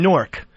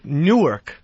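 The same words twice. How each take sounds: First: It is squeezed into one syllable, like Nork. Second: It is said with two separate syllables. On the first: This is how someone from there says it. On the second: This is how someone not from there says it.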